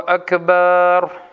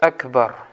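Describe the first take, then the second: First: The second vowel is drawn out long. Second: The second vowel is said short. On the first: The word means drums made of sheepskin. The speaker calls it wrong. "некоторые люди говорят вот так... Это неправильно" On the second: The word means greatest. The speaker calls it right. "Правильно говорит Акбар"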